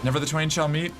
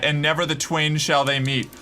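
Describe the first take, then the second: First: "meet" lifted as an unsure question; "Never the twain shall meet" said tentatively, ending upward; questioning tune. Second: Said in the usual way. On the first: Real, not acted. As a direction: check the quote aloud, rising on "meet". Checks own quotation, unsure.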